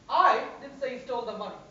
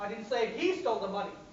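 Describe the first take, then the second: First: The word I is stressed. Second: The word he is stressed. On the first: Someone else said it. "Means somebody else said it" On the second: Someone else stole the money. "Somebody else stole the money"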